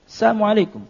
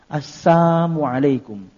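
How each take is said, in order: First: The greeting is said quickly, blurring the missing sound. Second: The greeting is said slowly, without the l sound. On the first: "kalau diucapkan dengan cepat itu seperti ada" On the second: "dengan menghilangkan yakni huruf lamnya"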